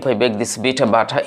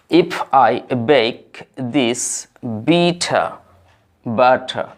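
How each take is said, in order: First: The phrase is read at a fast pace. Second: The phrase is read at a slow pace.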